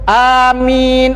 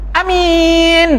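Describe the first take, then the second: First: The first vowel is long, the second long. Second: The first vowel is short, the second long. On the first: O God, grant our prayer. The speaker calls it right. "A-nya dua harakat, min-nya dua, empat ataupun enam" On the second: Someone very trustworthy. The speaker calls it wrong. "A-nya pendek, min-nya panjang"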